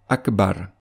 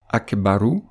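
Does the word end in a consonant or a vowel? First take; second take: consonant; vowel. First: The word ends on a bare consonant. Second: The word ends with a final short vowel. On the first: The reader stops on the word. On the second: The reader continues without stopping.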